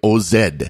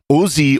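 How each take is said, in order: First: It is said in an Australian way, zed. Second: It is said in an American way, zee.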